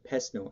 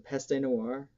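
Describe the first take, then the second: First: The first word ends without an extra vowel. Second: The first word ends with an extra vowel sound. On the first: The speaker calls it right. "it's Pest Noir" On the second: The speaker calls it wrong. "Peste would be more of a German pronunciation"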